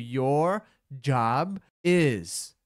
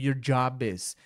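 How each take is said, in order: First: The words are separated by small pauses. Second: The words run together without any pause. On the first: "de propósito eu consigo separar uma da outra" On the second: "na prática é inevitável a emenda dessas palavras"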